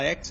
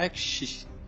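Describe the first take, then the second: First: It is said without the Carioca accent. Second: It is said with the Carioca accent. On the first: "o carioca ele não fala X" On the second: "ele fala X"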